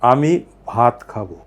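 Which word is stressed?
ভাত. The stress falls on the word ভাত.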